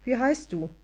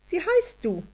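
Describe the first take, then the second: First: Said in the usual way. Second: Much higher tiny fairy asking wie heißt du; high elf voice. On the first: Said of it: "fragte Anja automatisch". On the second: A narrator's reading. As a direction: ask wie heißt du as a prim little elf. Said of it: "Das Wesen sah beleidigt aus".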